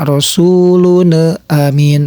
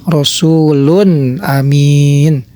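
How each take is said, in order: First: "rasulun amin" slowly, releasing the n into a short extra vowel; wrong reading with rebounding n in "rasulun amin"; bounced n. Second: Slow "Rasulun amin" ending cleanly on n; drawn-out model reading of "Rasulun amin"; clear, correct tanwin. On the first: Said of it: "jangan dipantulkan seperti itu". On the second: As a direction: recite "Rasulun amin" with a clear n, no bounce or hum. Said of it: "Yang benar yaitu harus jelas". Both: Shown as a demonstration.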